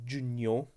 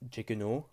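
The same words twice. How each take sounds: First: The gn is sounded as one nye sound. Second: The g and n are sounded separately. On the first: The speaker calls it right. "it is giugno. A G N is pronounced as nye" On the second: The speaker calls it wrong. "It is not giugno"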